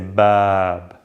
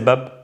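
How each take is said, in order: First: The vowel is long and drawn out. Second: The vowel is short and clipped. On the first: The speaker calls it right. "I say bab, bab, you gotta extend" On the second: The speaker calls it wrong. "I don't say bab"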